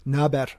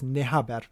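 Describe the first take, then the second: First: The two words are merged into two syllables. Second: The two words are said fully, three syllables. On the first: A casual slang greeting. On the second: The full underlying form of the greeting.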